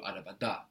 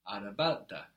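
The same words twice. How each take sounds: First: "araba da" quicker, with the stress on "da" and a rise; "da" accented, meaning in the car. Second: "Araba da" with the stress on "araba", falling on "da"; "araba" accented, meaning the car also. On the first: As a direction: push the stress onto "da" as an ending. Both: Shown as a demonstration. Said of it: "the accent is really showing us".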